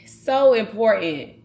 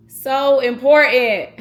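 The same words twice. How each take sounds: First: Said in the usual way. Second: So important said louder, higher and slower, pressing the word important; choked-up emphasis on so important; emphatic repeat. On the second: Real, not acted. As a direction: lean hard into so important, drawn out. Repeats it, more charged.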